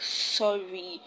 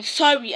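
First: "Sorry" softer and drawn out; "Sorry" said gently and slowly. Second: "Sorry" jumps high and louder with a fall; "Sorry" tossed off sharply; curt sorry. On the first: Showing a kind apology, "Sorry" said softly. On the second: Showing a rude apology, "Sorry" said curtly. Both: Shown as a demonstration. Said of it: "it takes a different tone in the head".

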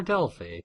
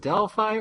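First: Delphi with a different last vowel, "fee" or "fay"; alternative pronunciation. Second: First Delphi ending like "fye"; American pronunciation. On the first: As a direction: say Delphi without the "eye" ending. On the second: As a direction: say Delphi to rhyme with "eye". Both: Shown as a demonstration. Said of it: "Do you pronounce it Delphi or Delphi?".

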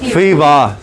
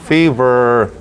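First: "fiva" ending in an open A, no R; British fever. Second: "fever" ending in a held "er"; non-British fever. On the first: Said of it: "el británico se pronuncia". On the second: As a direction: model "fever" low, drawing out the R-coloured ending. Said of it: "En inglés no británico". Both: Shown as a demonstration.

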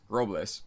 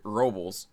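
First: Robles as "ROH-bless"; corrected pronunciation. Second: Robles as "ROH-bulz"; mispronounced name. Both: Real, not acted. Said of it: "if I knew how to talk".

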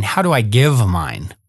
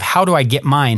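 First: "give" slowed and lowered; "how do I give mine?" with "give" leaned on slowly; stress on give. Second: "get" pushed with a falling close; "How do I get mine?" with "get" stressed. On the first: Shown as a demonstration. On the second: Retold or imitated. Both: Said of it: "instead of".

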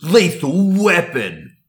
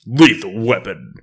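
First: Slow, high epic trailer announcer; movie trailer voice. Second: Slow, loud announcer read; movie trailer voice. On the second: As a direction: boom it out like a trailer. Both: Acted. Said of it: "do it with the movie voice as well".

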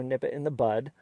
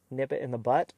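First: The idiom ending on "bud", with a d; BUD with final d. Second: The idiom ending on "butt", with a t; BUTT with final t. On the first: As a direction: say "bud" ending in a voiced d sound. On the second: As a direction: say "butt" ending in a crisp t sound. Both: Shown as a demonstration. Contrasts two versions of an idiom.

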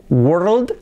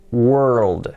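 First: "world" short with an open o, rising; wrong pronunciation. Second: "world" long, wer-ruld with falling tone; correct pronunciation. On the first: Teacher showing what won't do, wrong pronunciation. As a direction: say "world" wrongly as wor-ld, quick and lifted. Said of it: "Así que no valía decir". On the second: Teacher showing the required version, correct pronunciation. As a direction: draw out r and dark l in "world". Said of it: "hay que decir". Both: Shown as a demonstration.

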